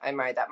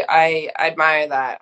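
First: Much softer, dropped lower; soft repeat. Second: Said in the usual way. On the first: Real, not acted. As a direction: let the repeat fall away quietly. Repeats praise, second quieter.

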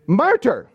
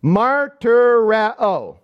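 First: Martyr said short, as the everyday English word; English word demonstration. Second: Martyreo drawn out very slowly, syllable by syllable; Greek word demonstration. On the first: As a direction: say Martyr as two plain, emphatic syllables. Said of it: "figure it out in the English language". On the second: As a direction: stretch out each syllable of Martyreo for listeners. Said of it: "Here's the word". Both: Shown as a demonstration.

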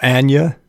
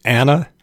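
First: Anya said as "AHN-yuh" with a y glide; the second option for the same name; other reading of the name. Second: Anna said as "AN-uh" with a flat a; the first option for the name Anna; one reading of the name. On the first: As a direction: say Anya with a "nyuh" ending. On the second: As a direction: say Anna plainly as "AN-uh". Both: Shown as a demonstration. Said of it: "It can be pronounced".

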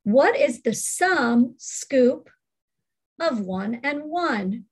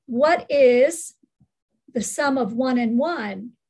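First: Slow, "What is the sum" as one chunk, then "of one and one"; slow phrased reading. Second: "What is" lifted and louder, then "the sum of one and one" together; phrased question. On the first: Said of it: "Let's try number six". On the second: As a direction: punch "What is" on a rise, pause, flow through the rest. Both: Shown as a demonstration.

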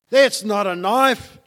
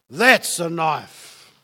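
First: Rising, throwaway first half with THAT'S leaned on; dismissive setup. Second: Slow, lower, falling "that's a knife" with THAT'S hit hard; weighty punchline. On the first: Preacher to congregation, setting up the contrast lightly. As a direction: toss off "That's not a knife" as the small one. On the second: Preacher to congregation, landing the contrast slow and heavy. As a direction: drop it slow and heavy like the real thing. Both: Shown as a demonstration. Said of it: "It's a contrast".

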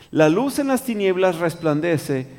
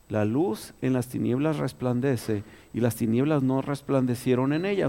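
First: Said in the usual way. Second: Slow, deliberate repeat of "La luz en las tinieblas resplandece"; slow reread. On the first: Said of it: "first reading of the verse". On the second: Shown as a demonstration. Preacher rereading the verse to the congregation, slow and deliberate. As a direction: let each word of the verse land slowly. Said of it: "rereads the verse to stress it".

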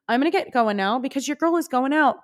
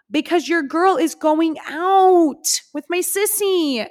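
First: Said in the usual way. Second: Put-on higher, slow, drawn-out singsong on "your girl is going out"; playful singsong. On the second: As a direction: sing it out, showing off the night plans. Repeat, sung-out emphasis.

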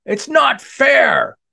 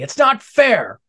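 First: Slow, high, loud furious yell; angry scream. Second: High, loud complaining cry; angry whine. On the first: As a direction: scream it out in a tantrum. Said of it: "Dinosaur screamed in anger". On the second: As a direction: whine it like a sore loser. Dinosaur tantrum after missing. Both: Acted.

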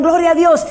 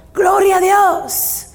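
First: A brisker, half-sung retelling of "Gloria a Dios"; quick, lighter quoted cry, slightly higher; mild shout. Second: Drawn-out, higher ringing cry of glory; slow, high, joyful church shout of "Gloria"; shouted praise. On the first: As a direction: lift it a little as you quote the song. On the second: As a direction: call it out slowly like a victory shout. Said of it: "y gritaban". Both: Retold or imitated.

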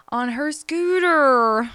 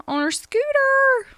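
First: Said in the usual way. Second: On her scooter said high and loud, pitch leaping up; dramatic emphasis. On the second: Shown as a demonstration. Mom retelling her daughter's fall to viewers, high and loud. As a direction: throw the repeat up high in disbelief.

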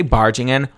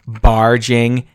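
First: Said in the usual way. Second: "barging in" drawn out slowly, each word set apart; emphatic BARGING IN. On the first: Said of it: "When I say barging in". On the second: Shown as a demonstration. Storyteller stressing how he burst in, slow, emphatic "barging in". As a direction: stretch "barging" and pause before "in". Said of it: "When I say barging in, barging in".

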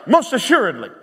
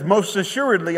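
First: "most assuredly" hit hard, a little raised; very emphatic. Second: Said in the usual way. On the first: Retold or imitated. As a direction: drive home "most assuredly" with firm emphasis. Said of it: "This is very emphatic".

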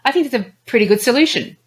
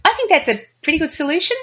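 First: Quick, settled statement falling on "solution"; downward inflection. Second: High pitch, rising on "solution" like a question; tentative uptalk ending on a raised "solution"; upward inflection. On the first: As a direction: bring "solution" down to a firm close. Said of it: "as opposed to". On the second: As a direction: say it quickly, lifting "solution" as if unsure. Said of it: "if someone was to say". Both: Shown as a demonstration.

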